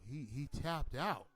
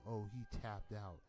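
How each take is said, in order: First: It is said with shock and enthusiasm. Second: It is said in a flat, nonchalant tone.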